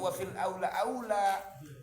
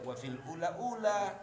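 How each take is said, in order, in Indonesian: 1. Kedua kata terakhir diucapkan sebagai aula. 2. Kedua kata terakhir diucapkan sebagai ula. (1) "jangan salah baca loh" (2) "jangan salah baca loh"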